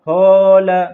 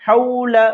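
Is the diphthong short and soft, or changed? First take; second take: changed; short and soft. First: The diphthong is changed from the short soft form. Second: The diphthong is short, soft and quick. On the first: The speaker calls it wrong. "ये गलत है" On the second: The speaker calls it right. "नर्म आवाज के साथ जल्दी से पढ़ना है"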